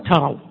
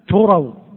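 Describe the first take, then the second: First: The first vowel is an 'a' sound. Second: The first vowel is a 'u' sound. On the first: "وفتحها" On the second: "يجوز بضم التاء"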